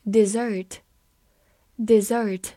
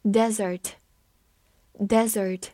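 First: "desert" stressed on the second syllable, di-ZERT; "desert" as the verb, weak first vowel, stress on ZERT. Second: "Desert" slow, stress on the first syllable, DEZ-ert; "desert" as the noun, stress the DEZ; "Desert" read slowly, first syllable stressed. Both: Shown as a demonstration. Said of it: "也可以用作动词，desert".

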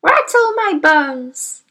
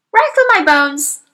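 First: Slow, high, spooky parrot voice; mock mysterious. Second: High squawking parrot, mock spooky; a parrot playing at ghostly. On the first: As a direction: drag it out like a ghost parrot. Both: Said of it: "giving a wonderful imitation of a spooky voice".

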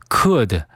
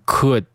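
First: Said in the usual way. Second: "could" with the final d held back; "could" ending in a silent stop; unreleased D. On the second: Shown as a demonstration. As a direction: stop "could" short without releasing the d. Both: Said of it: "失去爆破".

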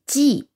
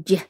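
First: "G" said as a hard g sound; wrong hard G. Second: "J" said as a soft j sound; correct soft G. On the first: Teacher showing the mistaken reading, "G" as hard g. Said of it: "在这里G不是读成G". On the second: Teacher correcting the reading, "J" as soft j sound. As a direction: say "J" soft, like the j in jam. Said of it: "而是读成J". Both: Shown as a demonstration.

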